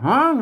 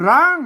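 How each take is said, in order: First: The word begins with an h sound. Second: The word begins with an r sound. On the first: This is the Northern Thai dialect form. "อ่านภาษาเมืองมันออกว่าห้างเนอะ" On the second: This is the standard Thai form. "ไอ้ภาษาไทยมันร้าง"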